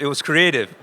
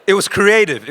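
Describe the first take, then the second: First: Said in the usual way. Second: Laughing it out, louder and higher; real laugh through the words. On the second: Real, not acted. Telling the audience about the sign, laughing.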